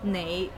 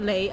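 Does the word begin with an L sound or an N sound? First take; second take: N sound; L sound. First: The word begins with an n sound. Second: The word begins with an l sound. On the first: This is the careful, standard pronunciation. The speaker calls it right. "that's very proper" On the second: This is the lazy, casual pronunciation. The speaker calls it wrong. "I probably have the lazy"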